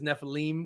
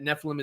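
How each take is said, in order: First: The last syllable is said as 'eem'. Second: The last syllable is said as 'im'. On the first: This is the original form. "to pronounce it correctly, is Nephilim, because Eem is is plural" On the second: This is the Americanized form. "Nephilim is fine because it's Americanized"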